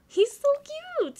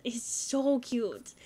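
First: High, louder gushing squeal; cute squeal. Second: Said in the usual way. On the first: Real, not acted. Cooing over cute Sims child.

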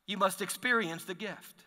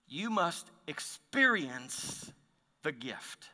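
First: Said in the usual way. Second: Slow, soft, each word weighed; slow hushed emphasis. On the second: Shown as a demonstration. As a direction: let it sink in, quietly and slowly.

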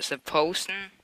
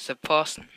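First: "person" said with a long O, like "POH-sun"; first way of the name, "person" with a round OH in its first syllable. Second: "person" said with an open vowel, like "PAH-sun"; second way of the name, "person" with an open AH in its first syllable. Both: Shown as a demonstration. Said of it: "How do you say your name".

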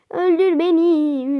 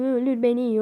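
First: Slow, higher and louder öldür beni with a falling öldür; dramatic taunt. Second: Said in the usual way. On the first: Acted. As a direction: dare the enemy with theatrical weight. Taunting enemy to kill her. (yavaş, yüksek ve abartılı öldür beni)

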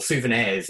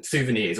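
First: Souvenirs with the ending said as "airs"; punning pronunciation. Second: Said in the usual way. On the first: Shown as a demonstration. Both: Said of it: "if you will".

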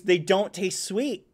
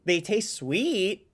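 First: "sweet" drawn out with a questioning rise; slow "they don't taste sweet", "sweet" rising; stress on sweet. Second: "sweet" said slowly, falling firmly; slow, firm "They taste sweet" with "sweet" dropping; stress on sweet. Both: Shown as a demonstration.

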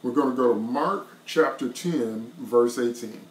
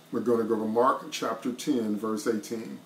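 Both takes have the same delivery.

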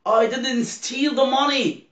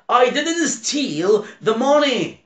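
First: Said in the usual way. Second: Acted quote. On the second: Teacher acts out example quote.

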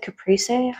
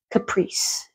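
First: "caprese" in three syllables, ca-PREE-say, rising; questioning pronunciation. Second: "caprese" in two syllables, ca-PREECE; unsure pronunciation. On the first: Checking how to say it, "caprese" as rising ca-PREE-say. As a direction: ask "caprese" softly, ending in -say. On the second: Reading the menu unsure, "caprese" said as ca-PREECE. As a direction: say "caprese" softly with silent final e. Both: Real, not acted. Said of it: "I don't know how you say that word".

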